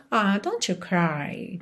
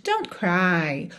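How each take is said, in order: First: Slow, soft and tender, almost sighing; soft consoling. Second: Said in the usual way. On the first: Shown as a demonstration. Teacher consoling a crying friend, slow and tender. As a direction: comfort a crying friend gently. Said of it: "quase, "It's breaking my heart". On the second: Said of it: "falar somente".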